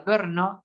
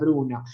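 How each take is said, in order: First: The name has no vowel right after B. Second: The name has an oo vowel after B. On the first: The speaker calls it right. "pronunciada Brno" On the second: The speaker calls it wrong. "erróneamente se la conoce como la Bruno"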